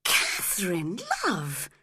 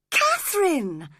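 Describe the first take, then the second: First: Said in the usual way. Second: "Catherine!" cried out higher and louder; shocked cry. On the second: Acted. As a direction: call "Catherine!" in shock, pitched up. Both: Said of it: "cried Edgar, shocked".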